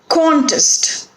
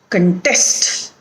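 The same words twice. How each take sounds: First: The stress is on the first syllable. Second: The stress is on the second syllable. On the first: It is used as a noun. "when there is a noun or an adjective, the stress is on the first syllable" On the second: It is used as a verb. "when it is a verb, it is on the second syllable"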